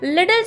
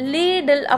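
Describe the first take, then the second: First: The first vowel is short. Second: The first vowel is long. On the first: The speaker calls it wrong. "சாரி" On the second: The speaker calls it right. "லீடில் அப்படின்னு சொல்லணும்னு"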